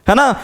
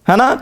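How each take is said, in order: No difference in how they are said.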